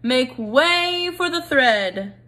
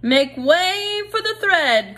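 First: Slow drawn-out call; a lightly voiced herald mouse. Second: High, slow call to clear the way; a mouse herald, high and drawn out; crying out. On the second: Acted. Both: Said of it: "cried a mouse".

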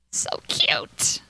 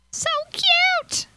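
First: Breathy whisper of adoration. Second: Squeal. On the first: Gamer whispering over her cute potatoes. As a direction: whisper it to yourself, no voice. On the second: Gamer squealing at her cute potatoes, very high. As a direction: squeal it out in delight. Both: Real, not acted.

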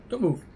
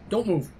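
The two takes are said the same way.

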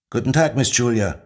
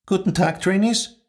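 First: Dutiful group reply, lightly voiced; class in chorus. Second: High, formal greeting of a strict head of school; stern headmistress. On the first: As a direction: answer like a class in unison. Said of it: "ertönte es im Chor". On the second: Acted. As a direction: greet the class from above.

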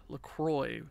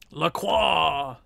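First: "LaCroix" as English "la-KROY"; anglicized pronunciation. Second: "Lacroix" as French "la-KWAH"; French pronunciation. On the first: Renaming the player Lacroix, "LaCroix" said English-style as "la-KROY", softer. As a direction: say "LaCroix" with a sounded r, ending in "oy". English retake of French name. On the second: Calling in the player Lacroix, "Lacroix" said French-style as "la-KWAH". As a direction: say "Lacroix" with a silent r, ending in an open "wah". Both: Shown as a demonstration.

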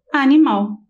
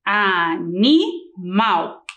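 First: Said in the usual way. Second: A-NI-MAL in three slow, separated syllables for "Animal"; split into syllables. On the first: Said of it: "Mal é a última sílaba da". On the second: Shown as a demonstration. Teacher showing pupils the last syllable, "Animal" slowly split into syllables. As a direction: break "Animal" into a, ni, mal, pausing between. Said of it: "E a sílaba final".

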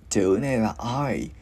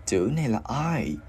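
No difference in how they are said.

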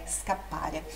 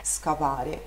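First: "scappare" with a firm held double p; strong double consonant. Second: "scappare" with a weak, single p, lower; weak single consonant. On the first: Teacher correcting the mistake, held pp in "scappare". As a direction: close on the pp in "scappare", then release. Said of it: "dá aquele som mais forte". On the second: Teacher showing what to avoid, weak single p in "scappare". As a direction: let the p in "scappare" go soft and short. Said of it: "não é scappare". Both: Shown as a demonstration.

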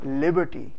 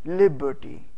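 First: Said in the usual way. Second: liberty parted as "lib... ber-ty"; liberty in separate beats, falling at the end; syllable by syllable. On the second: Shown as a demonstration. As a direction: break liberty after its first syllable. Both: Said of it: "उनको अलहदा-अलहदा बोलना होता है".

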